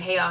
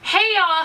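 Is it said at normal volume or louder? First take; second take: normal; louder. First: It is said at normal volume. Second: It is said more loudly.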